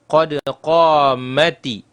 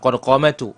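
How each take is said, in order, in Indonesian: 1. Kata kedua berakhir dengan vokal 'i'. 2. Kata kedua berakhir dengan vokal 'u'. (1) "bacaan yang benar adalah"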